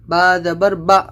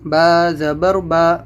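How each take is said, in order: First: The final vowel is cut off with a jolt. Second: The final vowel is even and medium length. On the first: The speaker calls it wrong. "आपको झटका भी नहीं देना है" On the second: The speaker calls it right. "ना झटका हो ना लंबा हो, बिल्कुल नॉर्मल आवाज़ हो बीच की"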